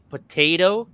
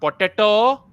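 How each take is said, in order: First: It is said with an American English accent. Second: It is said with an Indian English accent. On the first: The speaker calls it right. "I can finally hear people say potato" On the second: The speaker calls it wrong. "and not potato"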